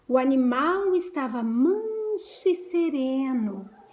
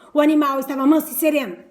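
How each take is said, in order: First: It is said in a soft, gentle voice. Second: It is said in a harsh, rough voice.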